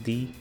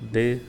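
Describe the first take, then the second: First: The vowel is a long 'ee' sound. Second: The vowel is a short 'uh' sound.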